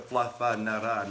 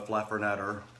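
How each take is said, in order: First: The R sounds are said lightly. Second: The R sounds are heavily stressed and drawn out.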